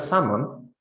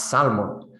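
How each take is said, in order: First: Salmon with a silent l; standard pronunciation. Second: Salmon with the l sounded; non-standard pronunciation. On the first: Teacher showing the first speaker's word, standard salmon. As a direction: say "salmon" with no l sound. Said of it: "as the standard pronunciation would be". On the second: Teacher showing the adapted word, non-standard salmon with an l. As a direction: pronounce the l in "salmon". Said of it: "an incorrect way of pronouncing things". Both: Shown as a demonstration.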